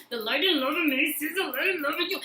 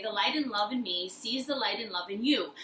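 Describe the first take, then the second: First: Higher, with a laugh and a catch; higher emotional repeat with a laugh; laughing through the mantra. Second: Calm mantra, said plainly. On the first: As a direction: repeat it moved, half laughing. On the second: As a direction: say it gently like a mantra. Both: Shown as a demonstration. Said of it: "look at them and say".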